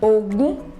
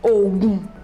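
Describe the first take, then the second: First: The pitch goes from mid to high. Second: The pitch stays low on both syllables. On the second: "Do, Do"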